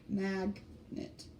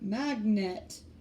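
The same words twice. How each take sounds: First: The stress is on the first syllable. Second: The stress is on the last syllable. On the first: The speaker calls it right. "We say magnet. So we emphasize that sound in the middle more than the end sound" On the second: The speaker calls it wrong. "we don't say magnet"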